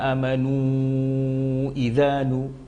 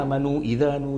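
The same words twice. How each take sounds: First: The final vowel of amanu is held long. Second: The final vowel of amanu is held short. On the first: The prolongation is given six counts. "ya kan panjang itu amanu idzanu" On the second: The prolongation is given only two counts. "dia dia cuma dua harokat saja"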